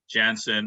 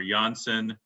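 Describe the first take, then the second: First: "Janssen" with an English J, as in jam; English J pronunciation. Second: "Janssen" with the J said as Y; European Y pronunciation. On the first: Health official naming a vaccine, "Janssen" with English J. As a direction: say "Janssen" starting with a hard English J sound. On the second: Health official correcting to the European name, "Janssen" as YAHN-sen. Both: Shown as a demonstration. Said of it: "pronounced Janssen".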